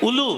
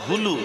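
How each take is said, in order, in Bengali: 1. শব্দটি একটি স্বরধ্বনি দিয়ে শুরু হয়। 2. শব্দটি 'h' ধ্বনি দিয়ে শুরু হয়। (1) "আগে উলু না" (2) "উচ্চারণটা হবে হুলু"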